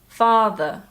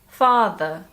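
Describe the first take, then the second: Both takes have the same delivery.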